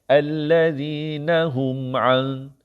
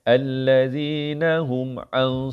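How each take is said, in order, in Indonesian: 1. Bunyi sengau ditahan dua harakat. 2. Bunyi sengau dipotong pendek. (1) "Dengung memang lambat sikit baca. Kerana dengung kena dua harakat" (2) "salah. Tak cukup dengung"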